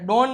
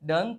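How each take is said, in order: First: The vowel sounds like 'oh'. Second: The vowel sounds like 'uh'. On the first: The speaker calls it wrong. "ડોન નહીં" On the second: The speaker calls it right. "ડન થાય છે"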